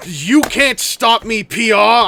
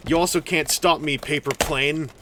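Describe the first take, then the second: First: Loud, slow playful yell. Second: Said in the usual way. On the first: Acted. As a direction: shout it out triumphantly. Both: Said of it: "why I'm yelling".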